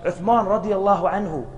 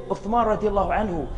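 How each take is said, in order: Both takes have the same delivery.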